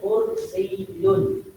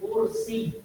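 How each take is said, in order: First: The word ends with a sounded final -un. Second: The word ends without the final -un sound. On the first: "Kami bunyikan kursiyun" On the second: "kalau kita matikan dia akan menjadi kursi"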